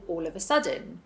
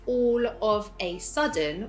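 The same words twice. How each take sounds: First: The words run together as one unit. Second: Each word is stressed and said separately. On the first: The speaker calls it right. "as one single" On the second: The speaker calls it wrong. "with emphasis on each word"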